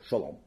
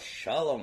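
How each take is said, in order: First: The greeting is mumbled in a grumpy tone. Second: The greeting is said warmly and cheerfully. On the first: The greeter does not really care. The speaker calls it wrong. "mumbling the word shalom with a grumpy face" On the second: The greeter is glad to see the person. The speaker calls it right. "with a smile and a warm heart"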